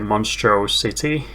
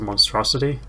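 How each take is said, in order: First: It sounds split, like 'Monstro' plus 'City'. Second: It sounds like the ordinary word 'monstrosity'. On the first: The car is not something ugly or monstrous. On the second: The car is called something ugly or monstrous.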